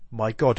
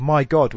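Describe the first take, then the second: First: Somber. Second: "my God" louder, a startled cry; surprised exclamation. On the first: Teacher reads the second "my God" as somber recognition. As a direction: settle "my God" into grave recognition. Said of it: "a more somber". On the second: Teacher shows the poem's first "my God" as surprise. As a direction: let "my God" burst out in surprise. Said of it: "exclamation of surprise". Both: Shown as a demonstration.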